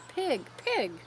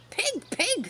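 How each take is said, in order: First: It is said softly and kindly. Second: It is yelled loudly.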